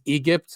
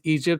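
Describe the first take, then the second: First: The word is said in an Egyptian-accented way. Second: The word is said in a standard English way. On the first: "which is how like uh, modern Egyptians say the the letter G" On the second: "when he says Egypt"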